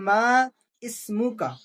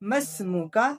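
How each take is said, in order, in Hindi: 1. दोनों शब्द अलग-अलग बोले जाते हैं। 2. दोनों शब्द मिलाकर बोले जाते हैं। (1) "असल में यह है" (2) "जब हम अल्फाजों को मिला देंगे तो कहेंगे"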